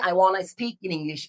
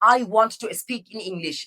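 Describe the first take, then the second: First: 'Want to' is shortened into 'wanna'. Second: 'Want to' is said as two full words.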